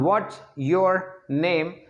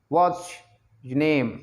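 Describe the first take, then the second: First: Each word is said separately and fully. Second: The words run together into linked sounds.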